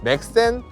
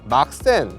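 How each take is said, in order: First: The first vowel is a front 'ae' sound. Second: The first vowel is an open 'ah' sound. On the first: The speaker calls it right. "그게 아니라 맥센" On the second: The speaker calls it wrong. "처음에 영문을 봤을 때 막센"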